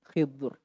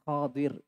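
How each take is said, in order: First: The first vowel is i, the second is dropped. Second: The first vowel is a, the second is i. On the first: "kha-nya di kasrah ... kemudian dotnya disukun" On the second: "Di fathah huruf kha-nya dan di kasrah huruf dotnya"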